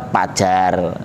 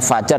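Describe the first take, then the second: First: The word begins with a p sound. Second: The word begins with a breathy f sound. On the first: The speaker calls it wrong. "fajar dibaca pajar" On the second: The speaker calls it right. "nggak perlu lagi ada salah mengucapkan"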